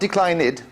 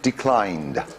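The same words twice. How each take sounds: First: The ending is an extra syllable, three syllables. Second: The ending is a short d sound, two syllables. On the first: The speaker calls it wrong. "not declined" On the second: The speaker calls it right. "but just declined"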